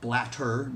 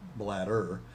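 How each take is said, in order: First: The middle consonant is a clear t sound. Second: The middle consonant sounds like a soft d. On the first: The speaker calls it right. "blatter, not bladder" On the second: The speaker calls it wrong. "not bladder"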